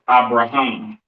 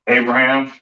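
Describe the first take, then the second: First: The name is said with Hebrew pronunciation. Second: The name is said with English pronunciation.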